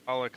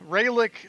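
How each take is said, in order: First: "Ralek" with an open A, RAL-ick; alternative pronunciation. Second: "Ralek" with a long AY, RAY-lick; southern-sounding pronunciation. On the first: Geek weighing two pronunciations, "Ralek" as RAL-ick. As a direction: begin "Ralek" with a short open vowel. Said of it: "Ralek River or Ralek River". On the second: Geek weighing two pronunciations, "Ralek" as RAY-lick. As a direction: stretch "Ralek" to begin like "ray". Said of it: "sounds more southern". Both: Shown as a demonstration.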